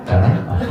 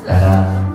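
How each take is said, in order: First: "따라?"를 웃음 섞어 끝을 올려 묻듯이; 웃음 섞인 의문조로 "따라?"; 웃으며 되묻기. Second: "따라."를 낮게 내려 부드럽게 끝맺기; 낮은 목소리로 다정히 "따라."; 낮고 다정한 부름. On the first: (청중에게 되물으며 웃음 섞어 "따라?") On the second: (예수님이 여인을 부르듯 낮고 다정하게) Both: Shown as a demonstration. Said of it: "어떻게 했어요?".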